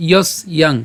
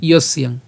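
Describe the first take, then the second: First: ইয়স ইয়াং in two separate pieces; broken into parts. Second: ইয়স ইয়াং run together as one word; joined pronunciation. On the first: Teacher splits the word for learners, ইয়স and ইয়াং apart. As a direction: say ইয়স, brief gap, then ইয়াং. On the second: Teacher shows the combined form, ইয়স ইয়াং without a gap. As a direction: glide from ইয়স straight into ইয়াং. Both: Shown as a demonstration. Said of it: "এটা একসাথে উচ্চারণ করছি".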